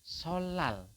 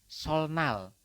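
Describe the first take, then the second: First: The middle is said with a double l. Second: The middle is said with an l then n. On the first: The speaker calls it right. "nian berubah menjadi L" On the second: The speaker calls it wrong. "sebelum Anda mengetahui aturan ini, Anda akan membacanya adalah solnal"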